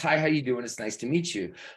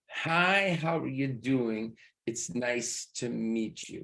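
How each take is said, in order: First: The phrase is spoken quickly. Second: The phrase is spoken slowly. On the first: "If it's fast" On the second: "Notice how slow that is"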